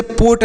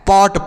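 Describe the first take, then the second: First: पोट with a rounded, closed "oh"; long Hindi ओ in पोट; wrong vowel in पोट. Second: पॉट with an open "aw"; open, unclosed o in पॉट; correct vowel in पॉट. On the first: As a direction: say पोट like "boat" with a p. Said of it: "इसे पोट नहीं पढ़ना है". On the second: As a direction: say पॉट as in English "pot". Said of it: "पॉट पढ़ना है". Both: Shown as a demonstration.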